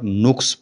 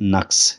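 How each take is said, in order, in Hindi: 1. पहला स्वर 'u' की आवाज़ है। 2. पहला स्वर 'a' की आवाज़ है।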